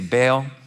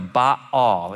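First: The name is said in a plain, everyday way. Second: The name is said in a careful, formal-sounding way. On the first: This is the speaker's own informal pronunciation. "So I'm just gonna say Baal" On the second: This is the proper pronunciation. "or Baal is how you pronounce it, but it just sounds pretentious to say that"

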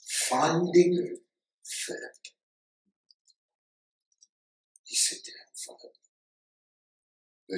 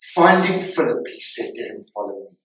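First: It is read slowly and deliberately. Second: It is read at a normal pace.

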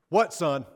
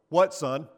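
First: It is said in a furious, livid tone. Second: It is said in a short, terse tone.

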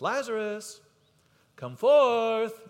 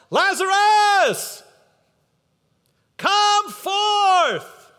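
First: It is said at normal conversational loudness. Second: It is called out in a loud voice. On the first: A calm, ordinary call that he could have used. "He could have just said it in a regular talking voice" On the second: He calls out loudly on purpose so everyone hears. "And Jesus uses a loud voice on purpose"

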